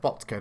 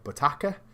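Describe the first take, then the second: First: The name is said with two syllables. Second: The name is said with three syllables. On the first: The speaker calls it right. "Botka, not Botaka" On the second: The speaker calls it wrong. "not Botaka"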